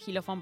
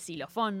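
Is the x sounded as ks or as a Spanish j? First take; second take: Spanish j; ks. First: The x is sounded like a throaty j. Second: The x is sounded as ks. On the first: The speaker calls it wrong. "no dice xilofón" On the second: The speaker calls it right. "se escribe con X y uno dice xilofón"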